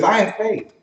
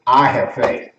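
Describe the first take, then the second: First: Higher-pitched, lightweight claim of faith; unconvinced claim. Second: Low, grounded declaration; firm conviction. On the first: A person claiming faith, lightly said. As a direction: toss it out without much weight. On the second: A person with better faith, firm conviction. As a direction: plant each word with certainty. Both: Acted. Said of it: "You hear the way they say it?".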